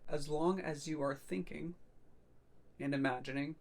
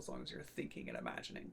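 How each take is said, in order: First: It is said at a slower pace. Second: It is said at a normal, quicker pace.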